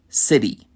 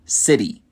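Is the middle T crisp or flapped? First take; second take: flapped; flapped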